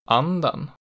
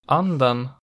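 First: The pitch peaks just after the stressed vowel. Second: The pitch peaks on the stressed vowel. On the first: "just after it in accent 2" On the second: "peaking on the stressed vowel in accent 1"

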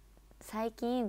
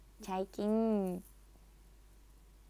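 First: The word begins with a plain 's' sound. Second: The word begins with a childlike 'ch' sound.

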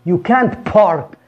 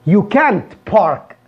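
No difference in how they are said.

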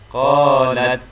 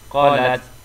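First: The first vowel is held for two beats. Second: The first vowel is cut short. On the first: The speaker calls it right. "Perlu dibaca dua harakat" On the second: The speaker calls it wrong. "Tidak boleh dibaca pendek. ... Salah"

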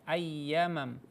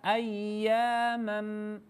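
First: The vowel after ya is short. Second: The vowel after ya is held long. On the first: The speaker calls it wrong. "Tadi Ibu juga membaca ayyamam" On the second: The speaker calls it right. "harus dibaca dipanjangkan dua harokat"

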